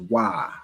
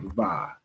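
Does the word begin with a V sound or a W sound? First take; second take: W sound; V sound. First: It begins with a W sound. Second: It begins with a V sound. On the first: The speaker calls it right. "it would be pronounced as Wa" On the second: The speaker calls it wrong. "not Va. There is no Va in the um in the Hebrew alphabet"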